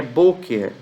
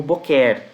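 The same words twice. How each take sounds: First: "boker" as BÔ-ker, weight on the first syllable; "boker" with long stressed bo and falling end. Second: "boquer" stressed on the last syllable, open e; "boquer" with the weight thrown onto "quer"; mistaken final stress. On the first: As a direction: lean on the "bo" of "boker", let "ker" fall away. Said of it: "A sílaba tônica é no B". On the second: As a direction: say "boquer" as bo-KÉR. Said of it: "algumas pessoas poderiam ler isso aqui como boquer". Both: Shown as a demonstration.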